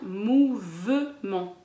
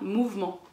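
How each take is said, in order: First: The middle E is pronounced as a syllable. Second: The middle E is dropped from the word. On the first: The speaker calls it right. "On va bien prononcer le E à l'intérieur de « mouvement »" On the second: The speaker calls it wrong. "Vous ne dites pas « mouvement »"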